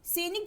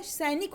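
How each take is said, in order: First: सैनिक with close "e", as senik; mispronounced सैनिक. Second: सैनिक with open "ai", as sainik; correct सैनिक. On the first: Teacher reads the misspelling, सैनिक said as senik. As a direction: narrow the first vowel of सैनिक to e. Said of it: "जैसा कोई शब्द नहीं होता". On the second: Teacher gives the right word, सैनिक as sainik. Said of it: "क्या होता है". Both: Shown as a demonstration.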